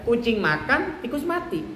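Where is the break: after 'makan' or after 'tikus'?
after makan. The phrase breaks after the word makan. The cat ate, and the mouse died. "Kalau orang tidak punya kepentingan, misalnya ya sudah"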